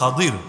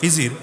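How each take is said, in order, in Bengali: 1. নামে d ধ্বনি আর a স্বরধ্বনি আছে। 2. নামে j ধ্বনি আর i স্বরধ্বনি আছে। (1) "মূল উচ্চারণ হলো খাদির" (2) "বাংলায় বলে লোকে খিজির"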